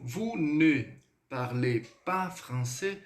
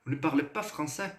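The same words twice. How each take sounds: First: Very slow, "vous", "ne", "parlez", "pas", "français" each held apart; held-back, broken delivery. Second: "Vous ne parlez pas français" run together without holds; one unbroken phrase. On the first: Teacher shows students' common mistake with negation, held-back broken delivery. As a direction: drag out "vous ne" and halt between words. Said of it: "Eles dão uma segurada na pronúncia". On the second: Teacher corrects the students' negation mistake, in one go. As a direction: slip "ne" and "pas" into one flowing question. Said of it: "Ele sai de forma uníssona".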